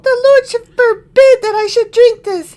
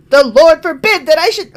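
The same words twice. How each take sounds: First: High, loud prissy exclaim. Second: Wrong voice. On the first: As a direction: whine it like a pampered king. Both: Acted. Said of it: "I did the wrong voice".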